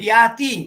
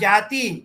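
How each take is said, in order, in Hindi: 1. यह शब्द y ध्वनि से शुरू होता है। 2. यह शब्द j ध्वनि से शुरू होता है। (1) "শুদ্ধ সংস্কৃতে বলে তো ইয়া ধাতু হবে" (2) "আমরা অন্তস্থ যা জ বলে উচ্চারণ করি"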